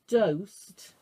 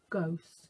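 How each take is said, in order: First: The word begins with a d sound. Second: The word begins with a g sound. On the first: The speaker calls it wrong. "Because I said dosed" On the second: The speaker calls it right. "That's right, because it's a ghost sound"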